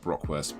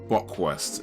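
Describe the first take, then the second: First: The word begins with 'bro', with an r. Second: The word begins with 'bo', with no r. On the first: The speaker calls it wrong. "Maybe I said it wrong" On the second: The speaker calls it right. "Bockwurst, not Brockwurst"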